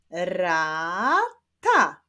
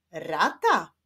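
First: "rata" split into ra, ta, drawn out; syllable by syllable. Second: Said in the usual way. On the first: Shown as a demonstration. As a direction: say "rata" slowly as two separate syllables. ("rata" powoli, sylabami: ra, ta) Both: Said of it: "do sylaby ra mam dodać".

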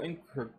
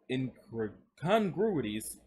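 First: Said in the usual way. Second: Incongruities spelled out very slowly, syllable by syllable; slow right down and land every syllable of incongruities; careful correction. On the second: Real, not acted. Reader fixing his stumble, saying incongruities very slowly. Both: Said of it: "I don't know why I kept saying incongru".

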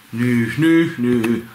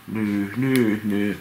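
First: Whiny troll snivel, pushed out; whimpering troll. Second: Quieter sniffly nyh, falling away; a hushed sulking snivel; softer troll whimper. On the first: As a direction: whimper like a sulking tooth troll. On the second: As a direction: whimper it again, smaller and sadder. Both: Acted. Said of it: "Se nyhkyttää".

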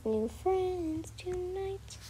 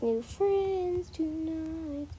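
First: Slow, whispered sung line; sung, breathe the song's last line; sung, hushed singsong ending. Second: Slow sung line, stretched out; sung, drawn-out singsong finish; sung slowly. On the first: Repeat, whispered. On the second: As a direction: croon it to end the little song. End of made-up song. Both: Acted.

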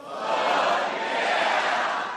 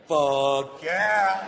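First: Crowd yelling back; audience shout. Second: Sung, hyped-up high cheer; excited yes. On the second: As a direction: belt it out with joy. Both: Shown as a demonstration. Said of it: "let's try it one time".

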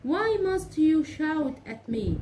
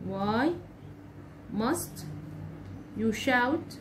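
First: Slow, higher, louder complaint; reproachful question. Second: Said in the usual way. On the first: Shown as a demonstration. Teacher acting out a complaint about being shouted at, reproachful. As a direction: blame him for shouting at you. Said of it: "أو مثلًا أقول له إيه؟". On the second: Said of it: "ده نوع من الانتقاد".

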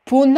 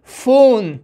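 First: پون starting with a hard p; the mistaken پون, ph read as plain p; wrong p reading. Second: فون opening on a clear f; correct f sound. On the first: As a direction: say پون as "poon", p in place of f. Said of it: "نمیخوانیم". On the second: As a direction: say فون as "foon", ph as f. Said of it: "پون نمیخوانیم". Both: Shown as a demonstration.

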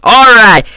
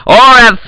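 The two takes are said the same way.

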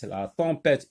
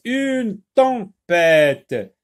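First: Said in the usual way. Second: "tempête" stretched out loudly as tem-pête; very slow, loud "une tempête" with gaps; syllable by syllable. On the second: Shown as a demonstration. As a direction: sound out "tempête" for beginning readers. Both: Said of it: "trois syllabes".

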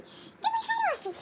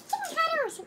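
First: Very high, slow, drawn-out dog praise; squeaky praising a dog. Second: High, laughing praise for a dog; squeaky praising a dog. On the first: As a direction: stretch it out sky-high, like doting on a puppy. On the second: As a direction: coo at the dog while giggling. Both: Real, not acted. Praising the dog after fetching.

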